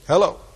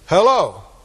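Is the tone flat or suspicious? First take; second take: flat; suspicious. First: It is said flatly, with little feeling. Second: It is said suspiciously, like questioning an intruder.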